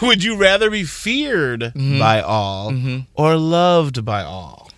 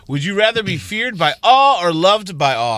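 First: The question is read slowly, in separate chunks. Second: The question is read at a normal, quicker pace.

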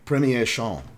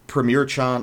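First: It is said with an exaggerated French accent. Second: It is said with a plain, unexaggerated accent. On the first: The speaker calls it right. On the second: The speaker calls it wrong.

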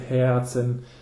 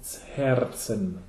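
First: The R is dropped, sounding like a schwa. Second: The R is clearly rolled. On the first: This is everyday spoken usage. "So it's often pronounced without an R. ... It's like a schwa laut" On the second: This is stage or singing usage. "when you sing it or on stage, when you say it, it's Herzen"

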